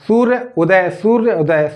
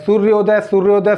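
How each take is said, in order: First: सूर्य उदय said as two separate words with a break; सूर्य and उदय kept apart, not joined. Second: सूर्योदय run together as one smooth word; सूर्योदय spoken in one breath, no break; joined into one word. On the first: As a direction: say सूर्य, pause, then उदय. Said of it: "अब आप बोल करके भी हम इसका बताएंगे". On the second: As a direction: blend सूर्य and उदय into सूर्योदय. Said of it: "सूर्योदय बोल करके आप उच्चारण करेंगे". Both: Shown as a demonstration.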